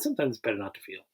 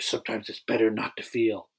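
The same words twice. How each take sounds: First: It is said in a plain, casual voice. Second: It is said in a cool, dramatic voice. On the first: The speaker calls it right. "He's just like, yeah" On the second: The speaker calls it wrong. "But he doesn't say it like that"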